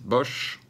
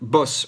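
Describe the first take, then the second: First: The name ends with a sh sound. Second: The name ends with an s sound. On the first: This is how the French usually say it. The speaker calls it wrong. "les Français disent Bosch" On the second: This is how the name should be said. The speaker calls it right. "C'est Boss, on prononce Boss"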